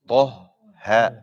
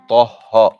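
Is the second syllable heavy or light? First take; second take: light; heavy. First: The second syllable is said light, not heavy. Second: The second syllable is said heavy like the first. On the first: The speaker calls it right. "Ta is heavy, ha is light" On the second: The speaker calls it wrong. "is the common mistake because the ta affects"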